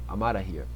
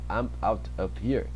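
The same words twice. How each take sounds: First: The words run together quickly, the f sound dropped. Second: Each word is said separately and fully. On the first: "ele fala bem rápido... E isso aqui junta" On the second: "ao invés de ele falar"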